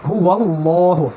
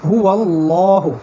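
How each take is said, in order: Both takes have the same delivery.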